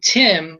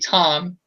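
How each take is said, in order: First: The vowel is not an 'ah' sound. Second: The vowel is an 'ah' sound. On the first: The speaker calls it wrong. "it should not be Tim" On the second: The speaker calls it right. "to alternate to the ah sound"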